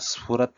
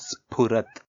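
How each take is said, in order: First: The consonant after s sounds like an f. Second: The consonant after s is an aspirated p. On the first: The speaker calls it wrong. "స్ఫురత్ అని కాకుండా" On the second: The speaker calls it right. "ఫ ప ఫ బ మ పెదాలు touch అవ్వాలి"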